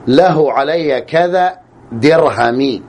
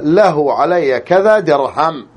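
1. تنتهي الكلمة الأخيرة بحركة قصيرة i. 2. تنتهي الكلمة الأخيرة بصوت الميم الساكن. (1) "الجر" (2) "بسكون الميم"

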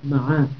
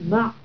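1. تليها العين فتحة قصيرة. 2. تنتهي الكلمة على العين دون حركة. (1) "فيها فتح العين" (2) "من يسكنها فيقول"

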